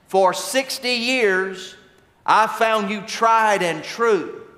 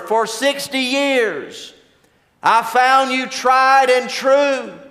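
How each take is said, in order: First: It is said at a soft, normal level. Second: It is said somewhat louder than normal.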